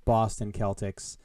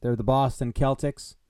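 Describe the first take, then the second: First: Celtics said with a hard K, slowly and deliberately; slow, deliberate Celtics with a hard K sound. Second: Celtics with a hard K at the start; Celtics, hard K, rising at the end. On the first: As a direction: spell it out: Boston Kel-tics, hard K. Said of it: "only one choice to be made here". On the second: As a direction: say Celtics as Kel-tics. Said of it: "It quite clearly says Celtics". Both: Shown as a demonstration.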